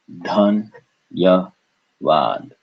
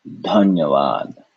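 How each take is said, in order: First: "Dhan, ya, vad" in three beats, stepping down in pitch; syllable by syllable. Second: Said in the usual way. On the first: Shown as a demonstration. Teacher repeating for learners, "Dhan, ya, vad" syllable by syllable. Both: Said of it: "So we break this up".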